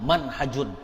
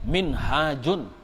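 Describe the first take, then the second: First: The first vowel is an 'a' sound. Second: The first vowel is an 'i' sound. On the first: This is the reading when the word is written without an alif. "Kalau bi ghairil alif ya dibaca bi fathil mim" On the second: This is the reading when the word is written with an alif. "Kalau ada alifnya lah minhajun"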